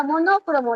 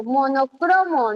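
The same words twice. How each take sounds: First: Monócromo with the beat on NÓ; stress on NÓ. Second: Monocromo with the beat on CRO; stress on CRO. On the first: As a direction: say monócromo, leaning on the second syllable. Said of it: "no existe la palabra monócromo". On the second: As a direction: say monocromo, leaning on the third syllable. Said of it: "porque yo pronuncio monocromo". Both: Shown as a demonstration.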